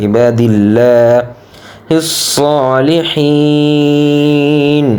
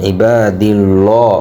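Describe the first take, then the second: First: "ইবাদিল্লাহিস" with a clear, thin "llaa"; "ইবাদিল্লাহিস সালিহিন", light l, long final vowel; correct light lam. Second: "ইবাদিল্লাহ" with a heavy, rounded "llaw"; "ইবাদিল্লাহ" ending like "llaw"; common mispronunciation. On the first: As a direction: say front, unrounded laa in "ইবাদিল্লাহিস", then chant "সালিহিন". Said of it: "সঠিক উচ্চারণ হবে". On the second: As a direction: darken the l and round the last vowel in "ইবাদিল্লাহ". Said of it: "আমরা অনেকে বলে থাকি ল". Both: Shown as a demonstration.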